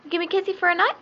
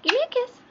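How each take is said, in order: First: High, sing-song coaxing. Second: Much higher, sing-song coaxing. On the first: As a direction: coax the bird sweetly. Coaxing the bird for a kiss. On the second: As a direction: squeak it way up high to the bird. Coaxing the bird again. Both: Real, not acted.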